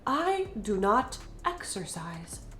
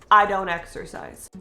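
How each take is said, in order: First: Do and not are said as two full words. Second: Do and not are joined into one contracted word. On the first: The speaker calls it wrong. "English speakers do not say" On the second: The speaker calls it right. "Don't is the contraction of do and not"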